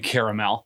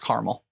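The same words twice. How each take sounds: First: The word is said with three syllables. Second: The word is said with two syllables. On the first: "I definitely don't say caramel. ... who's got time for that?" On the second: "I believe it's caramel"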